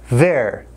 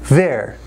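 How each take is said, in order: No difference in how they are said.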